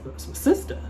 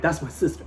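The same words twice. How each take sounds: First: High airy whispered echo of That's my sister; high whispered repeat. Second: Said in the usual way. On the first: Retold or imitated. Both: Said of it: "I'm like".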